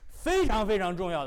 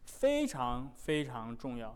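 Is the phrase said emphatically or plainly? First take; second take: emphatically; plainly. First: The phrase is said with heavier, stronger emphasis. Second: The phrase is said in a plain, ordinary tone.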